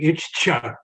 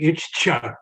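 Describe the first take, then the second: First: The double consonant is split with a break. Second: The same.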